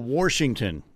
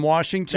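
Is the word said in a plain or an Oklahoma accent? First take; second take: Oklahoma; plain. First: It is said in an Oklahoma accent. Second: It is said in a plain accent.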